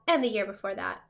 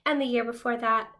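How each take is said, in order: Both takes have the same delivery.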